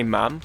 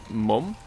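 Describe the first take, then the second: First: "ma'am" as Northerners say it. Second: "mum" said the British way. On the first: Streamer showing what some Brits say, northern "ma'am". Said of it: "Northerners say ma'am". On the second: Streamer quoting a chat name, British "mum". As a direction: say "mum" as they do here. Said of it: "That's what we say here". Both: Shown as a demonstration.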